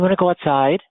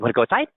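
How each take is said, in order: First: It sounds soft, gentle and soothing. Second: It sounds upbeat, playful and excited. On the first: The speaker is comforting an upset child. "Consoling a child" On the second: The speaker is talking affectionately to a pet. "if I was petting a dog"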